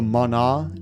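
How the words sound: The word is said with a Japanese pronunciation. "is the Japanese pronunciation"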